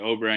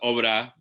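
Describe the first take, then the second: First: It is said with an English pronunciation. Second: It is said with a Spanish pronunciation. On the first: "obra in English is good" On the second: "the Spanish w- way to say it is obra"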